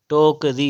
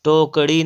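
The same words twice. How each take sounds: First: "टोकरी" slow, with plain r; correct r. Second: "टोकरी" as tokṛi, retroflex flap; wrong flap. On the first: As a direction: draw out "टोकरी" with a simple tapped r. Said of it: "टोकरी होता है". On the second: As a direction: curl the tongue at the end of "टोकरी". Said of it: "टोकरी नहीं होता है". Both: Shown as a demonstration.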